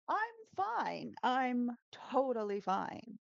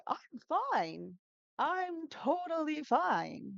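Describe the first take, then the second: First: Raised, slow strained I'm fine; Ross tone demo. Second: High, slow strained voice pretending to be fine; Ross imitation. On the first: Shown as a demonstration. Teacher showing students how Ross says I'm fine, a little higher and slower. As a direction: show students the high, tense I'm totally fine. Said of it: "in this tone". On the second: Teacher imitating Ross insisting he is fine, high and strained. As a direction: squeak out that you're fine while panicking. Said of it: "super high intonations when he's, like, super, uh, angry or nervous".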